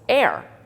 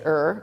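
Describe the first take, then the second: First: The vowel sounds like the word air. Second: The vowel sounds like the word her. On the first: "they pr pronounce it air" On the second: "but I like to say it er"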